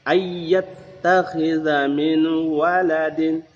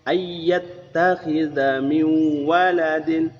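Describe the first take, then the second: The two takes are said the same way.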